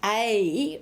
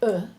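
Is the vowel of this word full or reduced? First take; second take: full; reduced. First: The word is said with a full vowel. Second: The word is said with a reduced vowel. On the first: "we say a in the stressed form" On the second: "uh is the unstressed form"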